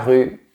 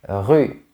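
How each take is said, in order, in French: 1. Le R guttural est doux et léger. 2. Le R guttural est fortement exagéré. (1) "Au quotidien, ce son est plus léger" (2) "Ici, j'exagère le son pour que tu comprennes bien"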